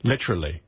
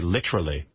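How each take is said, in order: First: It is said with a put-on British pronunciation. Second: The same.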